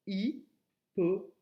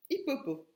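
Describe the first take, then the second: First: "hippopo" split into slow, separate syllables. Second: Said in the usual way. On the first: Shown as a demonstration. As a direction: pause after each syllable of "hippopo": hi, po, po. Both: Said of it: "c'est la dernière syllabe".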